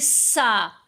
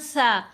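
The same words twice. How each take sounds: First: The consonant is a sharp, hissing s sound. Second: The consonant is soft, tongue between the teeth. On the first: The speaker calls it wrong. "बहुत से लोग इसको पढ़ेंगे सा, तो वो तो सीन की आवाज़ है" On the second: The speaker calls it right. "सा को भी नरमी से पढ़ना है"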